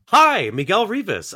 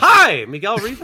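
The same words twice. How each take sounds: First: The hi is said softer and less sharp. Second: The hi is said louder and sharper.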